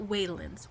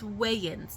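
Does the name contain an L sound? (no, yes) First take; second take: yes; no. First: The name is said with an L sound. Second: The name is said without an L sound. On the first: The speaker calls it wrong. "not Waylands" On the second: The speaker calls it right. "It's Wayans"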